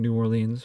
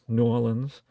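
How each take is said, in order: First: It is said the general, non-local way. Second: It is said the way locals say it.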